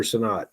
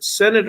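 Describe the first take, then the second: First: Sinnott as suh-NOT, stress on second syllable; Sinnott stressed at end. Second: Sinnott as SEN-it, stress on first syllable; Sinnott stressed up front. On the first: Co-host offering the other option, Sinnott said suh-NOT. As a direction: say Sinnott with a weak start, open NOT. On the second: Co-host checking a player's name, Sinnott said SEN-it. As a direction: say Sinnott with a short E first, weak ending. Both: Shown as a demonstration. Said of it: "Is it Sinnott or Sinnott?".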